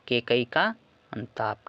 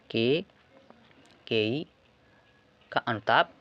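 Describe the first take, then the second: First: Said in the usual way. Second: "Kaikeyi" drawn out very slowly, then a pause before "का अनुताप"; slow dictation. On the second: Shown as a demonstration. Repeats title slowly for writing.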